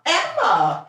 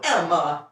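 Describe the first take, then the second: First: High, loud name call; sharp call. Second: Said in the usual way. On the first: Real, not acted. Owner calling her dog off the food, sharp high call. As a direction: snap the dog's name to stop her.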